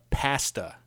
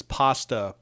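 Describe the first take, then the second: First: "pasta" with a short flat A, as in "past"; Canadian pronunciation. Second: Said in the usual way. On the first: Retold or imitated. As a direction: say "pasta" the Canadian way, first vowel as in "cat". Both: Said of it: "he pronounces pasta pasta".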